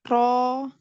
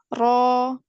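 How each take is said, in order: The two takes are said the same way.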